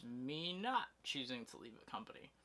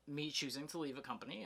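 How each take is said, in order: First: "not" raised and leaned on; stress on "not". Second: Said in the usual way. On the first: Real, not acted. Vlogger contrasting leaving by choice with being let go, stressing "not". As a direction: put the weight on "not" against choosing.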